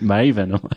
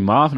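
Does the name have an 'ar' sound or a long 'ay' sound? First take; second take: long ay; ar. First: The first vowel is a long 'ay' sound. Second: The first vowel is an 'ar' sound. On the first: The speaker calls it right. "I always thought it was Maven" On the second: The speaker calls it wrong. "he was going Marvin"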